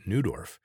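The name has an English-style pronunciation. "Here in Canada, we pronounce it"

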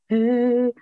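It is said in a light head voice.

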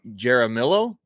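The name is said in an American country way.

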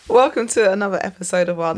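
It sounds smiley and cheerful.

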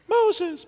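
It is said in a high Irish tenor voice. "his voice is actually an Irish tenor?"

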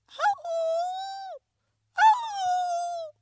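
The wolf's howl sounds strained and choked.

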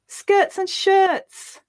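It is spoken with happiness. "Now we'll say it happily"

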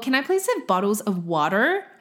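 It is said in an American accent. The listener understands the request.

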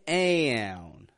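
The vowel starts with a fronted a sound. This marks the speaker as North American. "Personally, I would say aoun"

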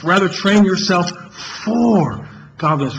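The word "for" carries the main stress.

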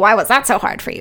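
The voice sounds challenging and confrontational. The listener is being challenged. The speaker calls it wrong. "Like, well"

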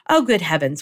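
It is read in a sweet put-on voice.

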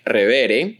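It is said with Spanish sounds and rhythm. "if you were to read that word using Spanish phonology, you would produce it something like Revere"

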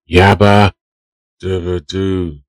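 It is said with strong feeling.

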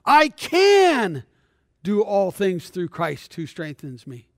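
The word 'can' is stressed.

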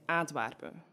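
It is said in flat Antwerp dialect.

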